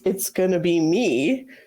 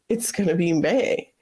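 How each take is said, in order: First: The last word ends in an 'ee' vowel. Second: The last word ends in an 'ay' vowel. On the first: The speaker calls it right. "that should be it's gonna be me" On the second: The speaker calls it wrong. "they say it's gonna be May"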